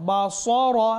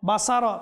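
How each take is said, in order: First: The 's' is heavy and emphatic. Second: The 's' is light and not emphatic. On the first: The speaker calls it right. "সদ" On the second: The speaker calls it wrong. "বাসার যদি বলি"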